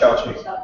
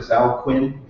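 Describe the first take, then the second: First: The name ends with a 'ching' sound. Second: The name ends with a 'kwin' sound. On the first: The speaker calls it right. "it's pronounced Chao Ching" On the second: The speaker calls it wrong. "it looks like Zhao Quinn"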